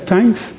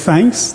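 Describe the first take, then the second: First: The word begins with a plain t sound. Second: The word begins with a th sound. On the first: "we sometimes just say thanks without the H" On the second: "then we move to thanks"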